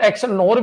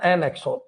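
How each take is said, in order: First: It is said as 'ex nor'. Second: It is said as 'en ex-or'. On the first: "बहुत सारे इसको एक्स नोर भी कहते हैं" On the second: "एन एक्सोर बोलते हैं इसको अधिकतर"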